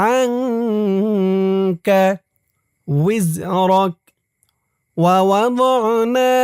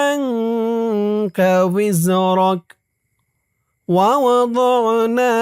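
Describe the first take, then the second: Both takes have the same delivery.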